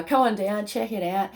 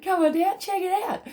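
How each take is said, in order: First: Said in the usual way. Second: Excited. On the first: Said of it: "plain invitation". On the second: Acted. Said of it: "repeated invitation, pitched up".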